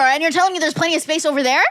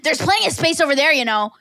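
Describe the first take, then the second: First: A slightly raised, scornful echo of the lady's line with "telling" leaned on; mocking disbelief. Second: Lightly voiced, dismissive bench hog with "plenty" leaned on; snotty lady. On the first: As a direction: toss the lady's words back at her, incredulous. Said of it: "go argue with the Grim Reaper". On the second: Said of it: "And she's like".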